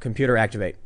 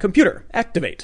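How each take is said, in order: First: It is said in a tired, low-energy voice. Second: It is said in an alert, energetic voice. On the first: "one day you're like tired and you go" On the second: "when you first say it, you're like"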